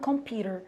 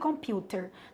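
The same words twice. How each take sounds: First: It is said in an American accent. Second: It is said in a British accent. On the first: "Na pronúncia americana" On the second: "No pronúncia britânica"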